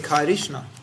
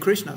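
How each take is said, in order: First: A vowel is heard between k and r. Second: The k and r join with no vowel. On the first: The speaker calls it wrong. "we don't say Krishna" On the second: The speaker calls it right. "We say Krishna"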